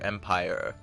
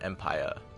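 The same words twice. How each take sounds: First: The final R sound is clearly pronounced. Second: The final R sound is dropped. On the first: The speaker calls it wrong. "should have been" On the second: The speaker calls it right. "No R there"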